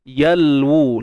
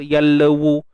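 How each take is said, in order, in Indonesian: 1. Bunyi l tertutup rapi tanpa vokal tambahan. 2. Ada vokal tambahan setelah bunyi l. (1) "lam pastikan tidak uh, kita uh, melebih-lebihkan bunyinya" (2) "beranakkan bunyinya, tawallud"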